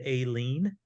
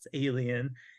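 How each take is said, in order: First: The title is said as two syllables. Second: The title is said as three syllables. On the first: "I pronounced it Aileen" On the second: "it's Alien"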